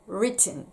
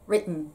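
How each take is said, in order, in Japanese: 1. nの前のtは完全に開放されます。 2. nの前のtは飲み込まれます。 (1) "written ですけど" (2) "実際はwritten となります"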